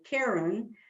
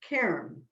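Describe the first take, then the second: First: The word is said with two syllables. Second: The word is said with one syllable. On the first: The speaker calls it wrong. "My family keeps telling me I'm saying Karen" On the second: The speaker calls it right. "it's only one syllable"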